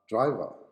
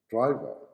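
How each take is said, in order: No difference in how they are said.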